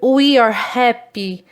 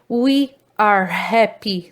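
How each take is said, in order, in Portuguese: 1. 'We are' é contraído em uma sílaba. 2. 'We are' é dito como duas palavras completas. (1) "Aqui no exemplo de forma abreviada" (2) "Da forma extensa"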